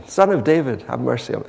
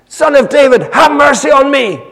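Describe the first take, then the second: First: Said in the usual way. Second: High, desperate yell for mercy; top-of-voice shout. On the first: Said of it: "he shouts out again". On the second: Acted. Blind beggar calling to passing Jesus, shouting. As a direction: shout it out at full voice. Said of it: "He shouts out, top of his voice".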